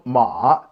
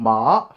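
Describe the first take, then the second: First: The pitch dips low, then rises again. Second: The pitch rises from middle to high. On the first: "third tone ma two one three" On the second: "second tone ma two five"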